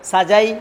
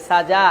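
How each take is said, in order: First: সাজাই closed on a y glide; wrong sukun ending. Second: সাজা ending on long open aa; alif-length stretch. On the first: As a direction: end সাজাই in a diphthong, not open aa. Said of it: "বলা যাবে না". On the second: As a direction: stop on সাজা with its last vowel held. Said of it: "এক আলিফ টান দিয়েই থামতে হবে". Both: Shown as a demonstration.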